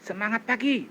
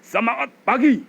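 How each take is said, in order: First: It is pushed from a tight throat. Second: It is full, supported from the belly.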